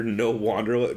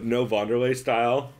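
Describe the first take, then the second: First: Said in the usual way. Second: "Wanderlei" starting like "van", not "wan". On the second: Retold or imitated. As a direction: say "Wanderlei" with an initial V sound. Restarts quote with V for W.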